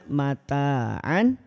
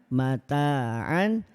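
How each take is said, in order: Both takes have the same delivery.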